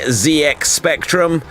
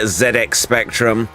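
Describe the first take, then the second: First: The letter Z is said the American way. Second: The letter Z is said the British way. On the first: The speaker calls it wrong. "It's not the Z X Spectrum" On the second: The speaker calls it right. "it was a British thing after all"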